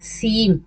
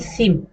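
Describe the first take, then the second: First: सीम with a slightly stretched ee; long ee. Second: सिम with a short, quick i. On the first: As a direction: draw out the ee in सीम a little. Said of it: "हम लोग खींचते हैं ना थोड़ी सी". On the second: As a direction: keep the vowel in सिम brief. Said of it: "ना कि". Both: Shown as a demonstration.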